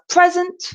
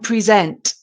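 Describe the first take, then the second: First: The stress is on the first syllable. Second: The stress is on the second syllable. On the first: "present with a stress at the beginning" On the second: "which is a stress on the second part"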